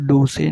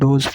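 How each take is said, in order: First: The final e is sounded as a vowel. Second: The final e is silent. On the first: The speaker calls it wrong. "इसे डोसे नहीं पढ़ेंगे" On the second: The speaker calls it right. "इसको डोज पढ़ेंगे, last वाला ई silent"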